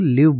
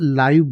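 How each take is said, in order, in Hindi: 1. स्वर छोटा है, जो "give" से तुक मिलाता है। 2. स्वर लंबा है, जो "five" से तुक मिलाता है। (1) "तो उसके लिए आप इसको लिव बोलेंगे" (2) "तो तब इसको लाइव बोला जाता है"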